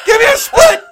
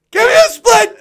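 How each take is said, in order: First: Very high, loud pleading shout; excited yell. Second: Very high, loud pleading shout, falling at the end; excited yell. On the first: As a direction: yell the plea at full pitch. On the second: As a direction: yell it once more, ending down. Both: Retold or imitated. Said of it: "He's like".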